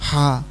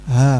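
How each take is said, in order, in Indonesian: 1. Bunyinya dibuat terlalu tinggi di tenggorokan. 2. Bunyinya dibuat rendah di tenggorokan. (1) "terasa di sini ha, ha ini berarti kurang turun" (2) "kalau dari bawah di benar berarti"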